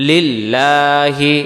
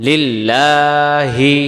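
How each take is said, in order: Both takes have the same delivery.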